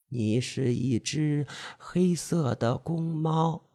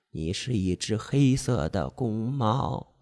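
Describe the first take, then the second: First: Slower, softer hypnotic repeat; seductive hypnotic voice. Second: Slow, soft hypnotic chant; seductive hypnotic voice. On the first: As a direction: draw out 黑 in a soft, slow murmur. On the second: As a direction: lull him, stressing 黑 softly. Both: Acted. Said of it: "魅惑的声音， 细声慢语".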